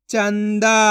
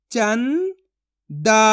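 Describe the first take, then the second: First: Said in the usual way. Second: चंदा split as "चं", long pause, "दा"; syllable by syllable. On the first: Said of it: "तो मिलके बन जाएगा". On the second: Shown as a demonstration. Teacher sounds out चंदा for learners, syllable by syllable. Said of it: "एक एक अक्षर का उच्चारण करके".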